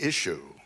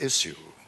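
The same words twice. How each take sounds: First: The middle sound is 'sh', like 'ish-you'. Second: The middle sound is 's', like 'iss-you'. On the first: The speaker calls it wrong. "a word which apparently is spelt I S H Y O U" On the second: The speaker calls it right. "instead of issue"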